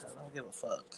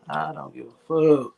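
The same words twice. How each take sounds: First: Much softer, half to himself; softly muttered "I don't give a fuck"; under breath. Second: Louder, firm and defiant; "I don't give a fuck" said loud and flat-out; loud declaration. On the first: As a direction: mutter it low, nearly swallowed. Repeated line, first under breath. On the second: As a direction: say it out loud like you mean it. Repeated line, now declared aloud. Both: Real, not acted.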